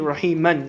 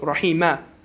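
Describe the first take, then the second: First: The word ends with an added 'n' sound. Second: The word ends on a plain vowel 'a'. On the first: The recitation continues without stopping. "if you continue" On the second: The verse ends here. "because it's the end of a verse"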